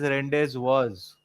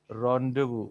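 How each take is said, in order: First: The final consonant of the word is sounded. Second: The final consonant of the word is silent. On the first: The speaker calls it wrong. "people would generally pronounce it as" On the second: The speaker calls it right. "the way it is pronounced actually is"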